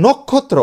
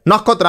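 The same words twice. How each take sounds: First: নক্ষত্র with a closed o first, "nok-khot-tro"; correct pronunciation. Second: নক্ষত্র with an open first vowel, "nawk-khot-tro"; everyday pronunciation. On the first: Teacher stating the proper pronunciation, নক্ষত্র as nok-khot-tro. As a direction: round the first vowel of নক্ষত্র to o. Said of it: "উচ্চারণ হচ্ছে". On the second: Teacher quoting how we say it, নক্ষত্র with open aw first. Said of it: "আমরা বলি নক্ষত্র". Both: Shown as a demonstration.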